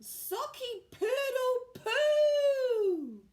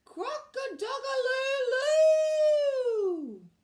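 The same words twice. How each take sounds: First: High, loud, slow garbled crow; botched crow again. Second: Shouted high, loud, very slow crow; a rabbit straining to crow like a rooster; rabbit's botched crow. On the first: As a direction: try the crow once more and fail. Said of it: "Rupert tried again". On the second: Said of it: "threw his head back and shouted". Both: A narrator's reading.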